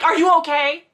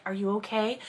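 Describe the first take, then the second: First: High, loud, alarmed "Are you okay?"; overwrought concern. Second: Gentle concern. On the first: Acted. Maxim to Caroline after a hug, overblown alarm. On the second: Shown as a demonstration. Checking on Caroline because Kit was brought up, gentle concern. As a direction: ask "Are you okay?" quietly and kindly. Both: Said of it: "if it was meant to be like".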